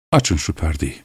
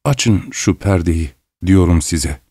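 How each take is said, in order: First: Lower, softer instruction; subdued order. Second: Slow, low, slightly trembling insistence. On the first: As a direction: give the order quietly and low. Doctor's first order to open curtain. (alçak sesle, sakince emrederek) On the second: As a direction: repeat the order slowly, voice unsteady. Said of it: "sesi titreyerek". (sesi hafifçe titreyerek, ağır ağır) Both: A narrator's reading.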